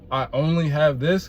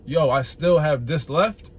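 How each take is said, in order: First: It sounds low-energy and deflated. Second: It sounds upbeat and positive.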